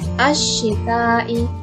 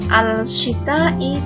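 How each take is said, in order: First: The l merges into a doubled sh sound. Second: The l is pronounced before the sh sound. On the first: The speaker calls it right. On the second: The speaker calls it wrong.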